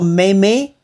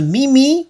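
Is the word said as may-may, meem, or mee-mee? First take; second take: may-may; mee-mee. First: It is two syllables with an 'ay' vowel. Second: It is two syllables with an 'ee' vowel. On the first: "你不要说妹妹" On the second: "也不是咪咪"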